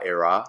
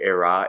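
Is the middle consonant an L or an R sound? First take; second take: R; R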